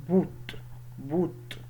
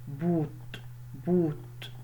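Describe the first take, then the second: The two takes are said the same way.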